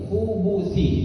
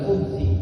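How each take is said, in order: First: A 'u' vowel is heard between 'b' and 'th'. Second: No vowel is heard between 'b' and 'th'. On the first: The speaker calls it right. "pakai u" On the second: The speaker calls it wrong. "bukan khubthi"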